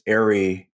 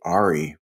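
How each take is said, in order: First: It is said the usual American way. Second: It is said the way Germans say it. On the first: "in the Americas, it's ARRI" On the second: "In Germany, I think they actually say ARRI"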